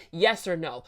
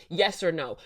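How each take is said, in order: Both takes have the same delivery.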